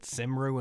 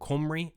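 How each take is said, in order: First: Cymru is said as an English reader would guess. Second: Cymru is said with its Welsh pronunciation. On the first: The speaker calls it wrong. "I apologise for calling your t-shirt Cymru and Western. As an uneducated Englishman, I took a guess" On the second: The speaker calls it right. "now where I can actually correct it, and I believe it is now Cymru"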